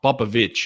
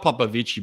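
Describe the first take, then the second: First: The name is said without an Italian-sounding ending. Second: The name is said with an Italian-sounding ending. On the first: The speaker calls it right. "It's Pop Popovic, okay?" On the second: The speaker calls it wrong. "It's not Popovici, by the way"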